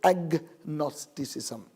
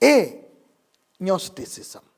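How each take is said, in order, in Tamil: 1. g ஒலிக்கப்பட்டு, 'ag-nosticism' என்று சொல்லப்படுகிறது. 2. g ஒலிக்காமல், 'a-nosticism' என்று சொல்லப்படுகிறது.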